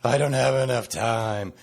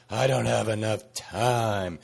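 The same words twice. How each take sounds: First: Whiny mock complaint; whiny complainer's moan; complainy pants voice. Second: Slow whiny complaint; slow, whiny mock grumble; complainy pants voice. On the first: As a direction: moan it like a grumbler. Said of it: "I'm gonna use my complainy pants voice". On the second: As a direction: drag it out like a moaning complainer. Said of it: "that's my complainy pants voice".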